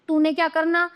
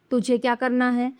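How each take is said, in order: First: "तूने क्या करना" held up in pitch; "तूने" read as the faulty form, unfinished tune; wrong example. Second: "तुझे क्या करना है" settling downward; finished tune from "तुझे" to "है"; correct example. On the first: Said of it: "ये तो अशुद्ध वाक्य हैं". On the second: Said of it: "ये शुद्ध हैं". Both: Shown as a demonstration.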